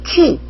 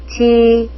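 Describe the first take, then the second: First: The ch is strongly aspirated, Korean style. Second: The ch is between aspirated and tense. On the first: The speaker calls it wrong. "치, 치 이게 아니고요" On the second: The speaker calls it right. "치와 찌 중간 발음"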